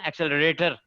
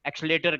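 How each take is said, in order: First: Every syllable is said fully and carefully. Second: It is said quickly with a syllable dropped.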